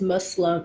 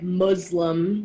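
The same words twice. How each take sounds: First: The middle consonant is an S sound. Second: The middle consonant is a Z sound. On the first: The speaker calls it right. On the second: The speaker calls it wrong. "there's not a Z sound in it"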